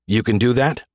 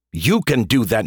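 First: "You can do that?" lifted on "that" like a surprised question; rising question. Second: "You can do that" with YOU pushed and falling; stress on YOU. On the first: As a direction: ask it with "that" rising. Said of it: "You can do that, knucklehead". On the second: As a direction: lean hard on "You", flat and sure. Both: Shown as a demonstration.

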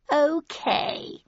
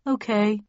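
First: High, grand and drawn-out; grand announcement. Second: Slightly doubtful okay. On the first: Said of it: "he announced grandly". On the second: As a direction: say it with a hint of doubt. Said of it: "he said slightly doubtfully". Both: Acted.

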